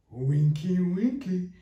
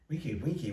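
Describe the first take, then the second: First: High sing-out of a teasing word; teasing friend. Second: Said in the usual way. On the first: Retold or imitated. Friend teasing her over wine at a restaurant, high-pitched mimicry. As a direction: raise the pitch, imitating the amused friend. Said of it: "she starts laughing". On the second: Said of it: "I'm just annoyed".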